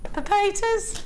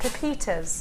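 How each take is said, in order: First: It is said in a strong Birmingham accent. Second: It is said in a neutral accent. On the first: The speaker calls it wrong. "you'd say it really brummy" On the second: The speaker calls it right. "Just don't say it like that"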